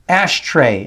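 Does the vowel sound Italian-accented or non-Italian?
non-Italian. The vowel does not sound Italian.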